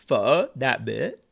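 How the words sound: The name is said with a Vietnamese accent. The speaker calls it right. "I have to switch to my Vietnamese accent to pronounce it correctly"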